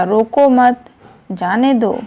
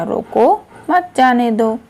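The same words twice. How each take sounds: First: "रोको मत" joined, a break, then "जाने दो"; pause after मत. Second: "रोको", a break, then slow "मत जाने दो" as one phrase; pause after रोको. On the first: Teacher showing comma changes meaning, pause after मत. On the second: Teacher showing comma changes meaning, pause after रोको. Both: Shown as a demonstration. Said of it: "अलग-अलग स्थान पर विराम चिन्हों के प्रयोग".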